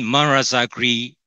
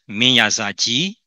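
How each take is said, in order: First: The name is said in Arakanese pronunciation. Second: The name is said in Burmese pronunciation. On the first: "in Arakanese" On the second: "is pronounced as Minyazaji in Burmese"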